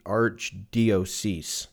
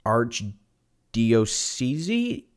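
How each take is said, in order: First: "Archdiocese" said slowly and firmly, falling at the end; settled pronunciation. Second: "Archdiocese" sounded out slowly, syllable by syllable, ending in a questioning rise; unsure pronunciation. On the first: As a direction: land "Archdiocese" with a confident fall. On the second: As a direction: test "Archdiocese" slowly like you're not sure of it. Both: Shown as a demonstration. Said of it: "I don't even know how to pronounce this word".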